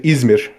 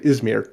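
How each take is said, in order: First: The name is said with a Turkish pronunciation. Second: The name is said with an English pronunciation. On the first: "in Turkish" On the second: "in English"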